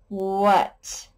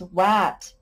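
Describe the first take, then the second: First: The vowel sounds like 'uh'. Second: The vowel sounds like 'ah'. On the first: The speaker calls it right. "Sometimes it says uh" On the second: The speaker calls it wrong. "Not a, such a word as wat"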